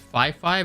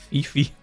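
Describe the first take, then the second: First: The name is said to rhyme with Wi-Fi. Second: The name is said not rhyming with Wi-Fi. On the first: "like Wi-Fi" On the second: "but that's more like Fifi"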